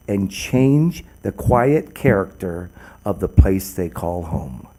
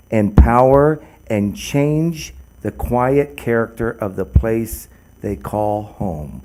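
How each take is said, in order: First: "change the quiet character" said slowly, dropping low and soft on "they call home"; slow, weighty repeat of "and change the quiet character of the place they call home"; slow emphatic repeat. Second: Said in the usual way. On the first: Shown as a demonstration. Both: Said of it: "I will repeat that".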